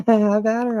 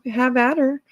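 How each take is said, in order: First: Laughing. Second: Said in the usual way. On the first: Real, not acted. Repeats line while laughing.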